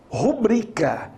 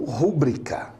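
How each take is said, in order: First: The stress is on the second syllable. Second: The stress is on the first syllable. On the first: The speaker calls it right. "A sílaba mais forte é o bri" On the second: The speaker calls it wrong. "e não o ru"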